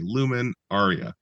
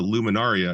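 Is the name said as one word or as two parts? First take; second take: two parts; one word. First: The name is split into two parts. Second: The name runs together as one word. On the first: The speaker calls it right. "It had a capital L and a capital A" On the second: The speaker calls it wrong. "it wasn't a Luminaria"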